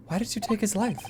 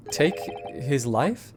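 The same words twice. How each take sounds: First: Said in the usual way. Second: Slow, stunned echo with a rise on "Take his life?"; incredulous echo. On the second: Acted. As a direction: repeat "Take his life?" slowly in disbelief.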